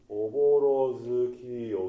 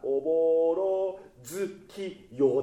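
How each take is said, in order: First: The consonant in 'zu' is soft and light. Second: The consonant in 'zu' is strongly articulated. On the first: The speaker calls it right. "ちょっと子音少なめっていきますか" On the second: The speaker calls it wrong. "発音がおぼろ月夜ってなるんですよ"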